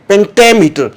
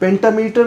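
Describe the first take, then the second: First: The main stress is on the second syllable. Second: The main stress is not on the second syllable. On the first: The speaker calls it right. "ये जो suffix ammeter जहाँ भी आएगा ये उसी syllable पे primary stress लेगा" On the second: The speaker calls it wrong. "Pentameter नहीं है"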